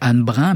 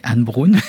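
First: The name is pronounced with French sounds. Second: The name is pronounced with Norwegian sounds. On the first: "j'aurais tendance à dire Anne Brun" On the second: "je le prononce à la norvégienne"

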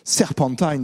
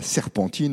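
First: The name is pronounced the English way. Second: The name is pronounced the French way.

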